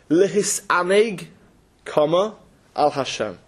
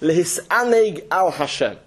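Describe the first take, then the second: First: There is a break after the first word. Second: The words run together without a pause. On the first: The purpose of life is enjoyment, directed toward God. "They would put the comma like this" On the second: Take pleasure in God. "That's how you would normally read it"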